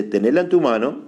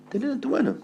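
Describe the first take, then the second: First: Said in the usual way. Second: Very high, soft "tenela en tu mano"; tiny high echo. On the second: Acted. Preacher echoing God's instruction, tiny high soft voice. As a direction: repeat "tenela en tu mano" small and squeaky.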